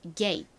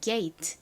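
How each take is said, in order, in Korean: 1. 빠르게 말하며 짧고 터뜨리지 않은 마지막 t를 발음함. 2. 천천히 말하며 마지막 t를 분명히 터뜨림. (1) "빠르게 하면 gate, gate, gate 이렇게 들리기도 합니다. 트 소리가 거의 잦아들고" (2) "천천히 정식으로 발음을 하면 gate, gate 이렇게 T 소리가 별개로 나는데"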